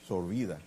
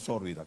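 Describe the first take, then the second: First: The stress falls on the second syllable. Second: The stress falls on the first syllable. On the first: The speaker calls it right. "es sorbida, del verbo sorber" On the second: The speaker calls it wrong. "no sórbida, como a veces escucho que pronuncian"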